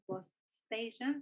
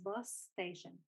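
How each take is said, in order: First: The two words are said separately. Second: The two words are linked together.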